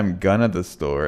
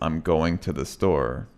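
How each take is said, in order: First: 'Going to' is reduced to 'gonna'. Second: 'Going to' is said in full. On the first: The speaker calls it wrong. "If you say I'm gonna the store, it makes no sense at all" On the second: The speaker calls it right. "So it's I'm going to the store"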